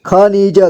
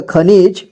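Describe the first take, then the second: First: खनिज as ख-नि-ज; syllable by syllable. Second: Said in the usual way. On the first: Shown as a demonstration. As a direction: sound out खनिज in three parts. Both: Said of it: "एक ही बार में पढ़ेंगे".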